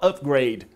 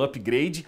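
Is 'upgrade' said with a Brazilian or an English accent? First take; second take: English; Brazilian. First: It is said with a native English accent. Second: It is said with a strong Brazilian accent. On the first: "mas você não fala upgrade" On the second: "você não falou igual eu"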